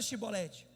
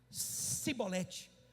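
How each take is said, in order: First: The word begins with an 'sh' sound. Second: The word begins with a plain 's' sound. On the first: The speaker belongs to the group that passes the test. The speaker calls it right. "fala Shibolete" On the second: The speaker is revealed as an outsider. The speaker calls it wrong. "Eles só conseguiam falar Sibolete"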